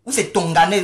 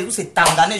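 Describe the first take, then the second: First: "Tonganais" said with an o after the T, rising at the end like a question; trying out "Tonganais" with a doubtful rise; mocking name guess. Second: "Tanganais" said with an a after the T, rising at the end like a question; mocking second guess. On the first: (prononcer « Tonganais » avec un o, en montant comme une question) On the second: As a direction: swap to "Tanganais" with a doubtful rise. (prononcer « Tanganais » avec un a, en montant comme une question) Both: Shown as a demonstration. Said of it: "je ne sais même pas comment on prononce ton nom".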